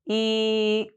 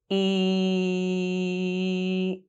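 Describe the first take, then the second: First: The vowel is held for about one second. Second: The vowel is held for about three seconds. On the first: "Hold the sound for one second" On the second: "Hold the sound for three seconds"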